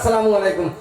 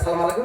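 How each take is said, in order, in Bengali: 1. সালামের শুরুটা পুরোটা বলা হয়। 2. সালামের শুরুটা ছোট করে বলা হয়। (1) "নাইলে খালি দিবেন আসসালামু আলাইকুম" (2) "এটা মরণের সালাম"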